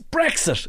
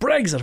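First: The middle is said with a 'ks' sound. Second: The middle is said with a 'gz' sound. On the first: The speaker calls it right. "It's an X. It's like exit" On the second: The speaker calls it wrong. "What's this eggs business?"

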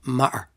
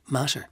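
First: The t is replaced by a glottal stop. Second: The word is said in a posh accent. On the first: "working class Dublin accent would replace the T with a glottal" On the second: "a very posh accent might say matter"

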